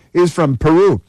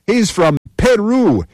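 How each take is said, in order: First: Said in the usual way. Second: Higher and slower, leaning on Peru; emphatic repeat. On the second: Real, not acted. Speaker reading a list of arrests to a crowd, higher, slow emphasis on Peru. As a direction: hold up Peru as the punchline, drawn out.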